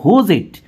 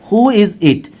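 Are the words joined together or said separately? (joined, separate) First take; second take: joined; separate. First: The first two words run together as one. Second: Each word is said separately and fully.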